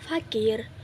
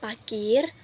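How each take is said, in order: First: The word begins with an f sound. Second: The word begins with a p sound. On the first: The speaker calls it right. "Kata yang benar adalah" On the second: The speaker calls it wrong.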